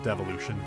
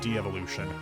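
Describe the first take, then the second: First: It starts with a short 'dev' sound. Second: It starts with 'dee' then 'evolution'. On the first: The speaker calls it wrong. "not Devolution" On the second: The speaker calls it right.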